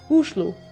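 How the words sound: It is said with a Norwegian pronunciation.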